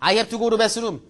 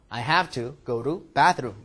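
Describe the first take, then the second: First: It is read straight through without a pause. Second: It is read with a pause between phrases.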